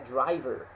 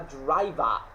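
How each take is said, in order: First: It is said in an American accent. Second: It is said in Cockney, with a more open ending. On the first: "voltada para o americano" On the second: "Na pronúncia dos Cockney, uh, é, eles vão falar bem mais aberto"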